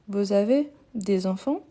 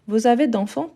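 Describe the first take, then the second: First: The question is said at a slower, careful pace. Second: The question is said quickly with sounds run together.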